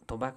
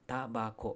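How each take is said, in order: First: The first vowel is an 'o' sound. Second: The first vowel is an 'a' sound. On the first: The speaker calls it wrong. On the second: The speaker calls it right.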